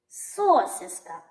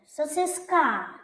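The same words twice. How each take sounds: First: The stress is on the first syllable. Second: The stress is on the last syllable. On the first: "Звук «о» спробуй стати головним" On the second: "останній звук «а» буде головним"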